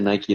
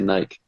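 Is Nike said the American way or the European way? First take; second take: American; European. First: Nike is said the usual American way. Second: Nike is said the European way. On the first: The speaker calls it right. "they don't say Nike" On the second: The speaker calls it wrong. "they say Nike"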